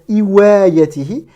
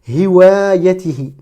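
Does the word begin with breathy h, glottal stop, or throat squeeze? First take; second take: glottal stop; breathy h. First: It starts with a sharp glottal catch. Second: It starts with a smooth breathy throat h. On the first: The speaker calls it wrong. "ce n'est pas une hamza, on ne va pas dire iwayatihi" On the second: The speaker calls it right. "cet air expiré qui sort de la gorge de manière très fluide, sans frottement"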